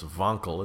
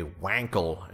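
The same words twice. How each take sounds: First: "Wankel" with a V sound, "Vonkel"; German pronunciation. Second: "Wankel" with an English W. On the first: Shown as a demonstration. Podcaster corrects the engine's name, German V in "Wankel". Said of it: "It's a German name". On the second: Retold or imitated. Podcaster quoting a car host's name for the engine, "Wankel" with English W. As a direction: say "Wankel" starting like "wank". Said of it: "but it's Wankel".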